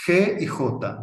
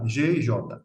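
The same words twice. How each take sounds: First: G y J as "heh" and "HO-ta"; Spanish letter names. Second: G y J as "zhay" and "ZHO-ta"; Portuguese letter names. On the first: Teacher naming letters in Spanish, G y J with throaty H. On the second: Teacher naming letters in Portuguese, G y J with ZH. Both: Shown as a demonstration.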